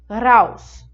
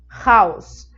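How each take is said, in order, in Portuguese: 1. O R é uma vibração atrás dos dentes. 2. O R é uma vibração na garganta. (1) "um som desse R atrás dos dentes"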